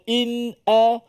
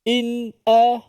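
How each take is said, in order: First: A clear, held glottal stop comes before the a. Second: A clear, held glottal stop comes before the a.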